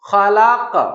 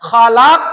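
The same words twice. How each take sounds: First: The final consonant has a moderate echoing bounce. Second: The final consonant is pushed with a strong jolt. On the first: The speaker calls it right. "প্রথমটার থেকে একটু শক্ত" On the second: The speaker calls it wrong. "এইরকম ধাক্কা এখানেও দিতে পারবো না"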